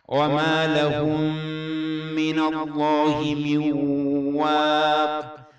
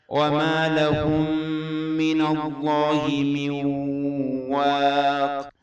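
No difference in how they are said.

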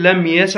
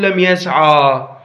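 First: The final vowel of the verb is short. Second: The final vowel of the verb is long. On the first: The speaker calls it right. "الفتحة كأنه نصف ألف" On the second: The speaker calls it wrong. "مو تقول لم يسعى"

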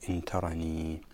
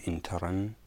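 First: The word ends with a long ee vowel. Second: The word ends on a plain n sound. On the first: "بإثبات الياء إن ترني" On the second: "بالوقف على النون إن ترن"

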